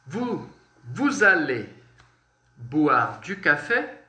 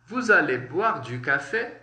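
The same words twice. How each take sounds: First: Slow dictation. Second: Said in the usual way. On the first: Shown as a demonstration. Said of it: "slow teaching demo of a sentence". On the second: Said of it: "repeat at normal speed".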